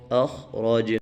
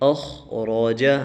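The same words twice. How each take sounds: First: The word ends on a stopped final consonant. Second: The word ends with its final short vowel.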